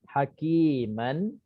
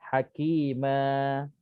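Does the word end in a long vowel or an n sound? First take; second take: n sound; long vowel. First: The word ends with an n sound. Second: The word ends with a long a vowel. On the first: The reading goes on past the word. "kalau ikut kita tulis ikut apa yang kita sebut" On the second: The reading stops on the word. "bila kita berhenti, dibaca hakimah"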